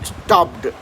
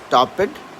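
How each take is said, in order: First: The ending is a quick, clipped, half-swallowed sound. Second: The ending is said as a full separate syllable. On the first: The speaker calls it right. "we'll always pronounce that as stopped" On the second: The speaker calls it wrong. "So you'll not say stop it"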